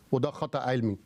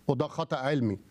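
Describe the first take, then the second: No difference in how they are said.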